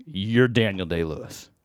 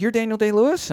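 First: Low, slow, unconvinced statement; imitated deadpan doubter, pitched down; skeptical challenge. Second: Higher voice rising in doubt; imitated woman's astonished question, pitched up; incredulous question. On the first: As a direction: say it slowly, not buying it. Sceptical husband is on to him. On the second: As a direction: ask it in wondering disbelief. Woman asks, not sure.

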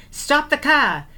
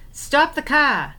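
First: High, loud cry to halt the car; retold scream. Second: High, loud, slow repeated cry; retold scream, slower. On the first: Sister retelling how she screamed at the driver to stop, high loud yell. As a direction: shout it out, desperate to stop the car. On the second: Sister repeating her scream at the driver, high and slow. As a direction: drag out the second stop, pleading.

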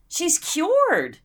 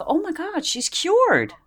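First: High, laughing through the punchline; amused repeat of her own joke. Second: High, mock-astonished gasp of relief; sarcastic fake wonder, pitched high; mock amazement. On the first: Retold or imitated. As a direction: giggle the words out. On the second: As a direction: act dumbstruck at the miracle. Mocking the sudden recovery.

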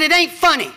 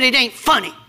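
First: "It ain't funny" pushed higher, grumpy; sulky retort, higher. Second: Grumpy "It ain't funny"; sulky retort. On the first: Pastor repeating his grumpy reply to his wife, mock sulk. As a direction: replay the pout with more lift. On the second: Pastor retelling his sulky reply to his wife, gruff. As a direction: sulk it out, lightly mocking yourself. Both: Retold or imitated. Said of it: "I said".

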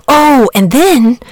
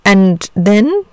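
First: "Oh, and then" louder and higher, falling at the end; slow, dawning "Oh, and then"; "and then" echoed as an answer, falling; catching on. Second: AND THEN drawn out, rising at the end; "And then" as an open question; leading question. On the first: Saint George takes up the prompt. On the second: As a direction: prompt with a rising, expectant "And then?". Dragon prompts for the next step. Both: A narrator's reading.

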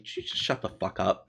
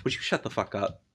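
First: Softer deadpan dismissal; dry sardonic. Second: Softer, flat-toned deadpan; a deadpan brush-off; dry sardonic. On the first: Shown as a demonstration. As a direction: say it bored and dry. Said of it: "somebody dryly and sardonically". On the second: Retold or imitated. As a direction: shut them down dryly. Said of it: "dryly and sardonically".

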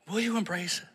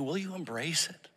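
First: Higher "Will you embrace it?", falling to a firm close; pressing question. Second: Quiet rising "Will you embrace it?"; soft question. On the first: Pastor pressing the congregation with a firmer falling question. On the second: Pastor asking the congregation softly, a rising question. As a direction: ask it gently, rising at the end. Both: Shown as a demonstration.

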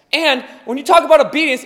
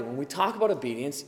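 First: Louder, faster. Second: Said in the usual way. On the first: Shown as a demonstration.

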